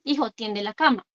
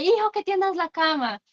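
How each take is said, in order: First: Said in the usual way. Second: Mock yell. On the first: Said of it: "con un tono de voz adecuado". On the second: Shown as a demonstration. Parent nagging child to make the bed, mild mock yell. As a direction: imitate an exasperated parent's yell without real volume. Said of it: "después gritándole".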